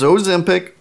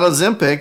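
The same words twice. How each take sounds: First: The first vowel is a long O sound. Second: The first vowel is a short O sound. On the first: The speaker calls it right. "long O in Ozempic" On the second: The speaker calls it wrong. "it's not Ozempic"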